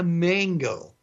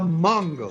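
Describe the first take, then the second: First: Mango is said with an American English pronunciation. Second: Mango is said with a Spanish pronunciation. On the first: The speaker calls it wrong. "Don't sound like a gringo all the time" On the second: The speaker calls it right. "the correct pronunciation of a mango"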